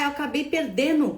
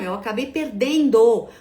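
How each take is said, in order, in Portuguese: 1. O som do d no final é apagado. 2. O som do d no final é mantido. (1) "Quando a pessoa te diz" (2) "Por favor, N D O"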